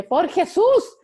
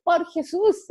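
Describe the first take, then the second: First: High, loud, laughing exclamation; daughter's exclamation. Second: High, loud exclamation; daughter's exclamation. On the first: Mother imitating her daughter's exasperated cry, high and laughing. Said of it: "mi hija tiene una exclamación que dice". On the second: Mother repeating her daughter's catchphrase, high and loud. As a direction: fling it out like an exasperated girl. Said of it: "ella dice". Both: Retold or imitated.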